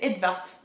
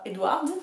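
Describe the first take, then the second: First: The middle is said with a clear 'v' sound. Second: The middle is said with an English 'w' sound. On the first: The speaker calls it right. "c'est Edvard" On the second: The speaker calls it wrong. "c'est pas Edward"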